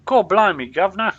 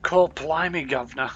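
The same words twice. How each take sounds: First: Put-on Cockney-style London accent, higher and much louder; over-the-top fictional-England London accent; hammed-up London accent. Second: Put-on a light, casual Cockney-style London accent; understated stock London accent; mock London accent. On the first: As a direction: belt out a stagey London accent. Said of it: "Is that a London accent?". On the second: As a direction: try the London accent once more, lightly. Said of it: "where that accent is from".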